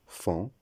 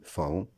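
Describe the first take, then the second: First: "fond" as one nasal syllable, like fan; correct pronunciation. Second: "faon" split into fa-ON; wrong pronunciation. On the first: Teacher giving the right form of faon, correctly pronounced fan. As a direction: say "fond" as fɑ̃, the word faon without an O. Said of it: "La bonne prononciation". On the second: Teacher showing the mistake in faon, mispronounced as fa-on. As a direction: say "faon" in two syllables, sounding A then nasal ON. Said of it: "La prononciation incorrecte". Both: Shown as a demonstration.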